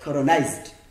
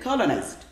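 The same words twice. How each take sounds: First: The stress falls on the second syllable. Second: The stress falls on the first syllable. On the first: The speaker calls it wrong. "Don't say colonized" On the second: The speaker calls it right. "we put the stress here, my friend"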